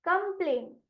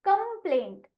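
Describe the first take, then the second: First: कंप्लेंट repeated more softly as kumplaint; softer repeat. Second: कंप्लेंट said higher as kumplaint, with a falling end; model word complaint. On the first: Teacher repeating the word softly for her pupils. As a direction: say कंप्लेंट again quietly, with a falling end. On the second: Teacher reading the word aloud to the class, higher pitched. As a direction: say कंप्लेंट as kum-plaint, up-pitched. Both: Shown as a demonstration. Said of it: "इसको पढ़ा".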